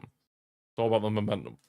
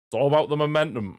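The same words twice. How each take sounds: First: Said in the usual way. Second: Higher, louder delivery; raised, emphatic. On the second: Real, not acted. Commentator stresses momentum to viewers, raised and emphatic. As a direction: lift the whole line up and punch it. Repeats line, first take punched.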